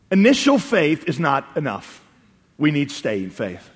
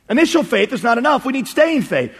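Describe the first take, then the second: First: Measured key point. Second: Raised pitch, insistent restatement; emphatic repeat. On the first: Preacher states the lesson to congregation, slow and weighty. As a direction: lay it down slowly, sinking on "staying faith". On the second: Preacher repeats the lesson to congregation, high and insistent. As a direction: drive the point home on a higher pitch. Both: Real, not acted.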